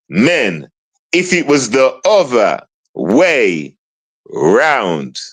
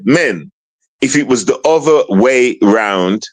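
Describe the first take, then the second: First: It is said at a slower pace. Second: It is said at a faster pace.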